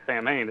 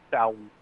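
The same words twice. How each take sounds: First: It is said as spelled, with an M sound. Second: It is said with a W sound in the middle. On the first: "even though it looks like Samhain" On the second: "it's Samhain. You know, you get a W and an I sound there"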